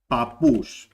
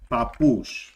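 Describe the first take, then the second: First: The middle p sound is short. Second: The same.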